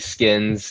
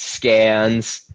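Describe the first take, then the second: First: The vowel sounds like the one in 'kin'. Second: The vowel sounds like the one in 'can'. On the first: The bearer is from the West Coast or Deep South. "West Coast or Deep South, definitely Skins is is on brand" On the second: The bearer is from Rhode Island or Massachusetts. "if it's from you know Rhode Island, Massachusetts, it's Scans"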